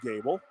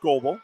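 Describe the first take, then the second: First: The first vowel sounds like 'gay'. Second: The first vowel sounds like 'go'. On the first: The speaker calls it right. "We got Leah Gable and Libby Gable" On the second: The speaker calls it wrong. "not Goebel"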